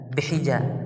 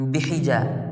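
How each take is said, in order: No difference in how they are said.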